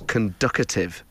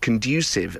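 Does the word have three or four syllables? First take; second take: four; three. First: The word has four syllables, with a T sound. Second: The word has three syllables, with no T sound. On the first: The speaker calls it wrong. "as conducative. ... There's not even a T in there" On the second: The speaker calls it right. "my partner and his mum used to pronounce the word conducive"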